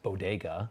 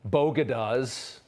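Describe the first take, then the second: First: The word is said as 'bodega'. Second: The word is said as 'bogadas'. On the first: The speaker calls it right. "How the hell do you not know that word?" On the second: The speaker calls it wrong. "There was an eruption in response to Jill Biden's taco comment and the Bogadas"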